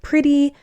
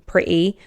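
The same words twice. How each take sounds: First: The middle t is a full t sound. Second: The middle t is a glottal stop.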